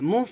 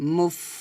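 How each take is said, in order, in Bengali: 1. f ধ্বনিটি ছোট করে কাটা, কোনো শোনা যায় এমন শ্বাস ছাড়া। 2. f ধ্বনি থেকে শোনা যায় এমন বাতাসের ফুঁ বের হয়। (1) "মুফ এটা হবে না" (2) "হবে মুফ এভাবে। / এখানে বাতাস বের হবে"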